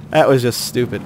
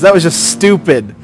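First: Softer, lower "That was just stupid."; muttered repeat. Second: Said in the usual way. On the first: Real, not acted. Gamer repeats complaint to himself, muttered repeat.

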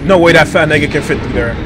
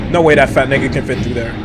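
Both takes have the same delivery.

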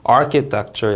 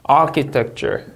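First: "architecture" stress on ar-; second model of "architecture"; word stress repeat. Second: "architecture," stress on the first syllable, falling; word stress demo. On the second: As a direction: model "architecture," hitting ar-. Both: Shown as a demonstration. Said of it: "이름절 강세 주의해서 읽으셔야".

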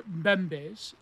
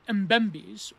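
First: Mbembe's with a silent M, like "BEM-bayz"; alternative pronunciation. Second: Mbembe's with a sounded M, like "um-BEM-beez"; alternative pronunciation. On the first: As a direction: start Mbembe's straight on the b and end it in "-ayz". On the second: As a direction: say Mbembe's with "um" before the b and an "-eez" ending. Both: Shown as a demonstration. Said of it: "depending on how you pronounce it".

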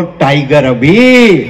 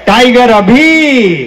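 First: Drawn-out low slogan; slow, low rallying call. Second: High, drawn-out rallying cry; slow, high crowd-rousing call; slogan call. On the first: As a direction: lead the crowd, stretching the words low. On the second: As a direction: raise the pitch and stretch out the slogan. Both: Real, not acted. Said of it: "दोनों हाथ उठा के एक बार बोलो".

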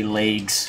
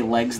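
First: "legs" with a long AY, "laygs"; "legs" with its vowel glided to AY; regional pronunciation. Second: Said in the usual way. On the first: Shown as a demonstration. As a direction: say "legs" to rhyme with "vagues". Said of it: "they say legs". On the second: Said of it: "They don't say legs".

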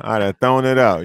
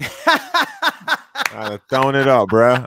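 First: Said in the usual way. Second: Laughing. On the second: Real, not acted. Laughing while repeating himself.

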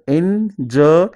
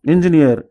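First: "engineer" slowly broken up as en - ji - near; split into syllables. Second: Said in the usual way. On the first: Shown as a demonstration. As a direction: pause between each syllable of "engineer". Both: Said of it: "divide the word into syllables".

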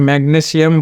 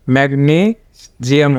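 First: ম্যাগনেসিয়াম with short "ne" and an "s" sound; common mispronunciation. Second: ম্যাগনেসিয়াম slowly, with long "nee" and voiced "zi"; correct English pronunciation. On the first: Teacher shows learners how we usually say ম্যাগনেসিয়াম, mispronounced with "ne-si". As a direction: say ম্যাগনেসিয়াম as mag-ne-si-am. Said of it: "এটা ম্যাগনেসিয়াম বলি কিন্তু". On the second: Teacher corrects learners, ম্যাগনেসিয়াম slowly pronounced mag-NEE-zi-am. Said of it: "ম্যাগনেসিয়াম হবে". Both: Shown as a demonstration.

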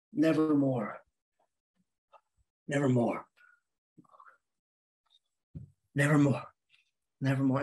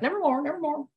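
First: Low, gloomy muttered repetition; dejected, low-pitched moping; very unhappy person. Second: High, comic bird squawk; squawky bird mimicry, pitched way up; parroting bird. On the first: Acted. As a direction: drone it low with long pauses, in misery. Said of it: "very unhappy person who just walked around all day going". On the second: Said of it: "finally the bird's like".

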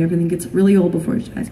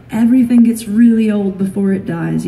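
First: Quick repeated reassurance, brushed past; hurried reassurance. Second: Said in the usual way. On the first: Retold or imitated. Parent putting off a child's worry, hurried imitated reassurance. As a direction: rattle it off to soothe a child.

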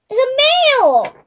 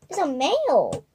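First: Excited. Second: Said in the usual way. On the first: Real, not acted. Excited discovery, then repeated.

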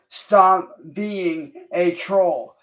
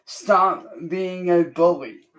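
First: Each word of "Stop being a troll" said slowly and deliberately; slow, deliberate, stressed "Stop being a troll"; slow emphatic warning. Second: Said in the usual way. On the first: Retold or imitated. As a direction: drag out "Stop being a troll" with a pause-like weight on "Stop". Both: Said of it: "and have told you".

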